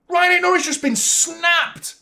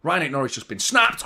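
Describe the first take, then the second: First: High, loud and slow outcry; outraged yell. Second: Said in the usual way. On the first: Real, not acted. Fan yelling to viewers about the injured player, outraged. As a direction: drag it out in disbelief.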